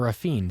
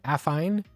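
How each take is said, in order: First: The last syllable sounds like 'feen'. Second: The last syllable rhymes with 'fine'. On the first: "Or mister Feeney" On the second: "Like fine"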